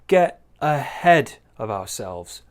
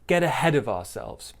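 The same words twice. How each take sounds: First: The phrase is said with strong, heavy emphasis. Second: The phrase is said with lighter, softer emphasis. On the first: The speaker calls it wrong. "Big stress there" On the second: The speaker calls it right. "slightly less stress"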